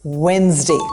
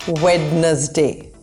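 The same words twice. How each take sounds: First: The D sound is left out. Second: The D sound is pronounced in the word. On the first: The speaker calls it right. "The D is not pronounced. It's just Wednesday" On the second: The speaker calls it wrong. "This is not Wednesday"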